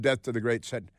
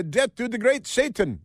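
First: Said in the usual way. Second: Chanted, high-pitched caricature of a militant slogan; mock fanatical chant. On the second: Radio host mimicking Iranian slogans, mock fanatical chant. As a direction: chant it as a put-on zealot.

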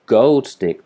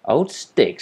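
First: GOLD punched louder and higher; emphatic GOLD, then falling on stick; stress on GOLD. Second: Put-on higher-pitched, offended repeat of OLD stick; affronted query on "Old stick"; indignant echo. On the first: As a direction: correct it firmly, hitting the word Gold. Rocket corrects Old to Gold. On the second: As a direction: echo "Old stick" in disbelief, OLD lifted high. Rocket indignantly repeats the insult. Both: A narrator's reading.

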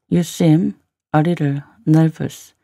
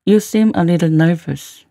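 First: Slow model reading with gaps; slow, in chunks. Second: Said in the usual way. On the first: Shown as a demonstration. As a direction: pause between word groups for learners. Teacher repeats line in slow chunks.

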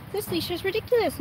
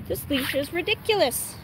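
First: Same complaint said again, higher; higher repeat. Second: Said in the usual way. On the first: Real, not acted. Owner repeating her leash complaint for viewers, higher mock grumble.

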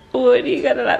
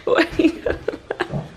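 First: Said in the usual way. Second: Laughing. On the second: Real, not acted.

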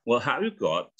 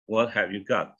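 First: Got with a rounded British o; British pronunciation. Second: Got with an open ah, as "gaht"; American pronunciation. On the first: Teacher models the same question, British got. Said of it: "Kalau British". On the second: Teacher models a question for students, American got. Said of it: "kalau American bacanya kan kayak got". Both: Shown as a demonstration.

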